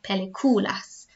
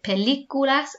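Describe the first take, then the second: First: The stress falls on the syllable cu. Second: The stress falls on the syllable li. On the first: The speaker calls it wrong. "and not peliculas" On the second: The speaker calls it right. "make sure you have included the accent on películas because it tells me I need to pronounce it películas"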